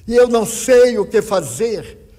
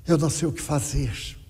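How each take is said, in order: First: Higher, louder, almost sung in despair; a grieving mother's near-sung wail of despair; anguished cry. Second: The grieving mother, exhausted, repeating her helplessness quietly; quiet despair. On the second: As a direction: let the helplessness sink into resignation. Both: Retold or imitated. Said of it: "e ela disse".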